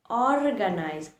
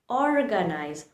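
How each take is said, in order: No difference in how they are said.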